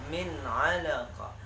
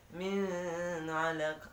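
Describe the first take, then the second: First: "min alaqa." slow and louder, crisp n; clear reading. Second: "min alaqa." with a higher hummed n; wrong nasal hum. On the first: Teacher modelling the correct clear "min alaqa.". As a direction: stress "alaqa" in "min alaqa." slowly and loudly with a clean n. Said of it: "Tapi yang benarnya". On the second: Teacher demonstrating the wrong humming "min alaqa.". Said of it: "Ah, salah". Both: Shown as a demonstration.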